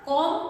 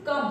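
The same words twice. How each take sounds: First: कॉम read as written with an open o; letter-by-letter reading. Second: कम said short with a neutral vowel; correct pronunciation. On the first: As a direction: sound out कॉम with a long open vowel. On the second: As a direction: say कम quickly with a short uh sound. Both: Shown as a demonstration. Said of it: "इसको लेकिन बोलते हैं कम".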